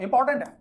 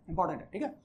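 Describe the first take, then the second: First: important punched high and loud; important said loud and high as a warning; stress on important. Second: Softly echoed important है; quiet repeat. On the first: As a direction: hit the word important hard, rising pitch. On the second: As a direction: drop the voice and repeat important है to let it sink in. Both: Shown as a demonstration.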